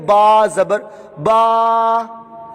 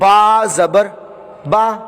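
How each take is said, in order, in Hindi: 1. स्वर को लंबा खींचा गया है। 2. अक्षर बराबर बोला गया है, बिना खींचे। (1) "ये अब इसको खींच रहे हैं, ये गलत हो गया" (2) "ये मैंने मारूफ पढ़ा"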